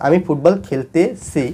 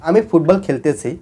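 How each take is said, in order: First: "খেলতেছি" slowed, broken before its last syllable "ছি"; ending split off. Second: Said in the usual way. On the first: Shown as a demonstration. Teacher pointing students to the tense ending, split-off ending. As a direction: pull "ছি" apart from "খেলতে" with a small gap. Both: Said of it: "লাস্টে তে সি আছে".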